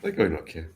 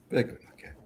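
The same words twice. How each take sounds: First: Said in the usual way. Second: Whispered aside. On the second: Shown as a demonstration. Repeated as a whisper.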